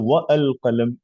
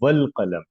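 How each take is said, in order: First: The 'a' of 'al qalam' is pronounced separately. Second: The 'wa' links straight to 'l' without 'a'. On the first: The speaker calls it wrong. "नहीं बोलते" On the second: The speaker calls it right. "अगर वाव आता तो आप कहते हैं वल कलम"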